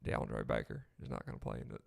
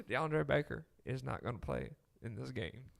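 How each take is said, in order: First: Low, drawn-out Southern coach drawl; a deep Alabama coach drawl, lightly held; Gus Malzahn drawl. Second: Put-on a mild Bainbridge, Georgia coach accent; Kirby Smart Southern accent. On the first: Retold or imitated. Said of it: "that's more like Gus Malzahn". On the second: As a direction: give it a hint of a Southern head coach. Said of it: "I'll get you a Kirby eventually".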